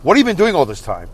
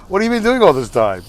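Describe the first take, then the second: First: Put-on indignant demand; hammed-up angry confrontation; Angry Dave. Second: Higher-pitched, acted amused disbelief; laughing-so-hard voice. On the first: Brother demanding answers from his sister, mock angry. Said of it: "there's Angry Dave". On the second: Brother finding sister's neglect ridiculous, pretend laughing. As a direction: pretend it's too ridiculous to take seriously. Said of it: "I'm laughing so hard".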